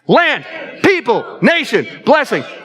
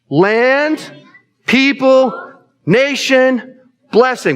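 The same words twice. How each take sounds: First: It is said quickly. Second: It is said at a normal pace.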